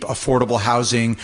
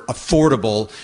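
First: Said in the usual way. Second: "affordable" set apart with extra emphasis; stress on AFFORDABLE. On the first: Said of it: "let's put emphasis on the word". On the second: Real, not acted. Property manager urging the council on housing, stressing "affordable". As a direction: lean firmly on the word "affordable". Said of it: "let's put emphasis on the word affordable".

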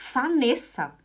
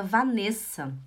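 First: "Vanessa" said as "Fanessa", with F; German reading. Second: Said in the usual way. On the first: Retold or imitated. Wife imitating her German husband reading the baby's name, F for V. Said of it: "alemão, ele leu". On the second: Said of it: "eu queria Vanessa".

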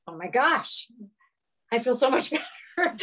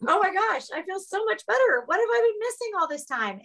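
First: A touch of laughing relief, lightly higher; breathless little laugh of relief, quickening; mildly amazed, feeling better already; relieved delight. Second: Much higher, gushing and amazed; high, thrilled disbelief speeding up at the end; overjoyed relief. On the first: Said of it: "and I was like". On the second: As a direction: squeal it out like a revelation. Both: Retold or imitated.

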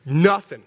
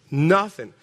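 No difference in how they are said.

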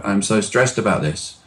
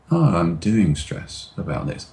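First: Said in the usual way. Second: Slower. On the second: Shown as a demonstration. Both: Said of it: "change the speed of your voice".

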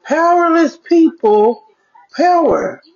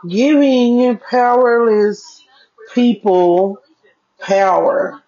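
First: "Powerless people" lifted high and slow, musing; puzzled musing, pitched up; pondering the quote. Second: "Giving powerless" drawn out slowly, pressing on Giving; slow deliberate emphasis. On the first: Retold or imitated. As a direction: turn "Powerless people power" over in your head, slowly. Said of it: "I'm like, hmm". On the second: Shown as a demonstration. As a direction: spell out the quote word by word, slowly.

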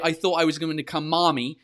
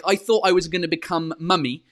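First: "mommy" with an open American ah; "mommy" with the vowel of "father". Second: "mummy" with a short British uh; "mummy" rhyming with "tummy". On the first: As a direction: imitate American "mommy" with a long ah. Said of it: "and you say". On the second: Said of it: "Amber was like". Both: Retold or imitated.

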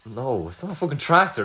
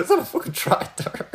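First: Said in the usual way. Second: Laughing. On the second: Real, not acted. Laughing repeat of wrong answer.

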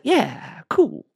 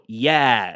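First: High, breezy yeah cool; chill yeah cool. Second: Dry, knowing yeah; sarcastic yeah. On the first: Host shows relaxed approval to a proud listener. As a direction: toss off an easy approval. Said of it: "And I'm just like". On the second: Host shows the sarcastic read of his neutral reply. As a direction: let the yeah drip with doubt. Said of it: "read into the sarcasm of that". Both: Shown as a demonstration.

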